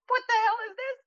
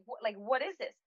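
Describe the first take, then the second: First: Very high-pitched indignant cry; retold outrage. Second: Higher but softly puzzled question; toned-down retold protest. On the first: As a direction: squeal it in mock outrage at the cook. Retelling confronting chef in kitchen. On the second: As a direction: ask it in restrained disbelief. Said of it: "Maybe not, maybe not in those words".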